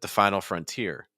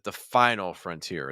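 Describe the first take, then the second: First: The stress falls on the word frontier. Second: The stress falls on the word final. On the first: "or do they stress frontier" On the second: "do they stress final"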